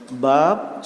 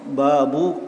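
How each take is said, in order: First: The word ends with no vowel after b. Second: The word ends with a short -u sound. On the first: "dibaca dengan disukunkan" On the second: "dalam bentuk mudhaf"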